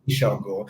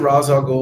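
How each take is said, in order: First: The first word is said like 'Raish'. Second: The first word is said like 'Rahz'. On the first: This is how the speaker says it. "pronounce it Raish al Ghul" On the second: This is how others say it. "know they pronounce it Ra's al Ghul"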